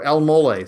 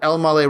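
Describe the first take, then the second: First: It is said in an Ashkenazi Hebrew pronunciation. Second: It is said in a non-Ashkenazi Hebrew pronunciation.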